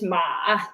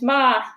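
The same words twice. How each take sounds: First: It is said with the third tone. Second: It is said with the first tone. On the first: "Third tone is ma" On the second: "The first tone is ma"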